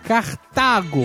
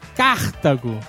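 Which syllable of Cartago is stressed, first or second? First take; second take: second; first. First: The stress is on the second syllable. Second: The stress is on the first syllable. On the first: The speaker calls it right. "O nome da cidade é Cartago" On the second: The speaker calls it wrong. "como se fosse uma proparoxítona... se a ênfase estivesse na primeira sílaba, como vocês falaram"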